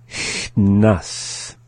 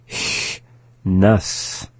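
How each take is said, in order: No difference in how they are said.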